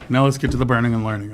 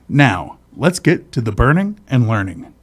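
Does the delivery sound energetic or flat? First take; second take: flat; energetic. First: It is said flatly, without any energy. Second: It is said with lively, announcer-like energy. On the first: It mimics someone else's poor delivery. The speaker calls it wrong. "you were just like" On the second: It is meant as a proper show intro. The speaker calls it right. "say it like you're saying it for an intro"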